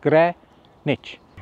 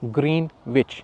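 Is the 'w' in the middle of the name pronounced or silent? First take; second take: silent; pronounced. First: It is said as 'gren-itch' without a w. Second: It is said as 'green witch' with a w. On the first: The speaker calls it right. "इसको कहते हैं ग्रेनिच" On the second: The speaker calls it wrong. "हम इसको pronounce करते हैं ग्रीन विच, जो कि बिल्कुल गलत है"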